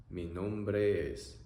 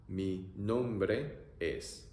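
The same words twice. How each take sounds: First: Said in the usual way. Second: Very slow "Mi nombre es." stretched; teacher modelling slowly; slow demo. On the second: Shown as a demonstration.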